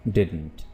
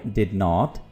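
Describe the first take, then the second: First: It is said as one shortened contracted word. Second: It is said as two full separate words.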